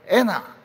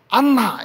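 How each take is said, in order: First: The first vowel is 'eh' with a single n. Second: The first vowel is 'ah' with a doubled n. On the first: "이렇게 부릅니다" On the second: "이렇게 부르지 않고"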